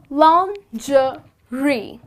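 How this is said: It is said with a British pronunciation. "this is how the Brits pronounce"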